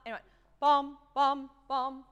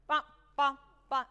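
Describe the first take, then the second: First: Bum, bum, bum sung loud with a little more length on each; fuller notes. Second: Bum, bum, bum clipped very short and loud; too short. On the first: Conductor showing trombones the fuller accented notes. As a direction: give every bum its full value. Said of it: "more like what they did". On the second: Conductor imitating the trombones playing too short. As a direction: chop each bum off quickly. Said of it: "you played it too short". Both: Shown as a demonstration.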